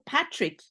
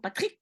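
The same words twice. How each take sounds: First: The stress is on the first syllable. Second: The stress is on the last syllable. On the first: "in English, I will say Patrick" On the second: "the stress will be on the ik and not in the beginning"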